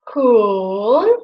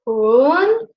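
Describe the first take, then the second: First: The pitch dips low, then rises again. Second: The pitch rises from low to high. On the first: "the third tone, which starts like here and goes till here, till the middle" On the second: "the second tone, which goes from one to four, like this, up"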